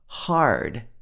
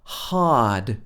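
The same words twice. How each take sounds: First: The R sound after the vowel is pronounced. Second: The R sound after the vowel is dropped. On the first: "Did you hear how she said R, R in hard" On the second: "If this was in a British accent, it would be ah"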